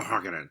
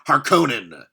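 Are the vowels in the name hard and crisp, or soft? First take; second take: soft; hard. First: The vowels are soft and trail off weakly. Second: The vowels are hard, strict and crisp. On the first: The speaker calls it wrong. "sounds like a car running out of it's running out of gas" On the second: The speaker calls it right. "with the hard and and strict vowels sounds better"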